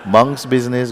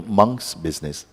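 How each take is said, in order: First: Monk's said higher and louder; stress on MONK'S. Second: Said in the usual way. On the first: Shown as a demonstration. Teacher marking the word for students, Monk's punched. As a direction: lean hard into Monk's, then let business fall. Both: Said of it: "go out, monkey business".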